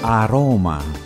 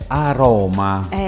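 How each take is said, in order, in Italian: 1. Si dice con dolcezza e delicatezza. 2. Si dice in modo semplice, senza dolcezza. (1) "va già meglio" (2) "Va detta con una certa delicatezza"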